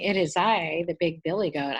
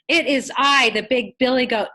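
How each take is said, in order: First: It is said in a plain, quiet voice. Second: It is said in a loud, scary voice.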